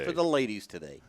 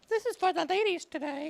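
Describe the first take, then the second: First: It is said in his normal voice. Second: It is said in a put-on high voice.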